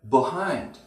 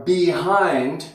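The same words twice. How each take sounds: First: The first vowel is reduced to schwa. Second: The first vowel is full, not reduced.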